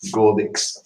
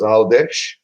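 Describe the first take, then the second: First: It starts with a hard G and ends in 'x'. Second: It starts with a vowel and ends in 'sh'. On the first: This is how English visitors read the spelling. "that's how you pronounce it in English" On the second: This is how locals say it. "in Maltese is Aldesh"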